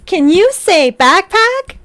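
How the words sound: It is said in a put-on character voice.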